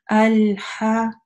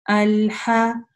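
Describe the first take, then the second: The two takes are said the same way.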